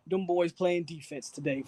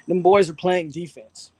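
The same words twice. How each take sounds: First: Said in the usual way. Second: Louder and slower, leaning on every word; emphatic repeat. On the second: Shown as a demonstration. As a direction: hammer the point home, slow and loud.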